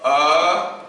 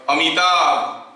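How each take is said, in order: First: "Amitabh" in long, separate sounds with gaps; syllable by syllable. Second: Said in the usual way. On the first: Shown as a demonstration. Teacher showing four sounds to students, "Amitabh" syllable by syllable. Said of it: "तो मुझे अ बोलना है". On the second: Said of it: "कहूंगा suppose ऐसे".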